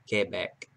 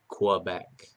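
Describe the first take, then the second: First: It is said with a French pronunciation. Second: It is said with an English pronunciation.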